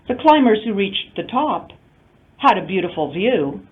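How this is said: It is broken into only two phrase groups. Only some of the climbers reached the top. "Restrictive, two intonation units only"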